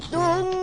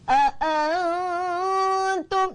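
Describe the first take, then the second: First: The first vowel is kept short. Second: The first vowel is drawn out long. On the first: The speaker calls it right. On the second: The speaker calls it wrong.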